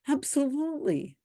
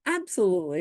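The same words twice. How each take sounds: First: High, sarcastic "Absolutely"; a mock-enthusiastic "Absolutely"; sarcastic agreement. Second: Said in the usual way. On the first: Real, not acted. Mocking agreement with a comment.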